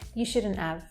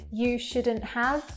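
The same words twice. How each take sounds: First: The H sound in 'have' is dropped. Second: The H sound in 'have' is pronounced.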